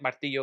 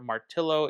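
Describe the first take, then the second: First: The name is said with Spanish pronunciation. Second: The name is read like an English spelling. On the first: The speaker calls it right. "they meant Martillo because it means hammer" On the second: The speaker calls it wrong. "if you're going to go how they spelled it, which is clearly wrong"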